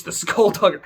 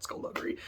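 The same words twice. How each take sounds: First: Skullduggery gelachen en hoog uitgeroepen; relishing the word. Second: Skullduggery gefluisterd, toonloos en zacht; whispered relish. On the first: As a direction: savour skullduggery with a giggle, higher and louder. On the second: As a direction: breathe skullduggery out as a secret. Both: Real, not acted. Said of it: "I love that word".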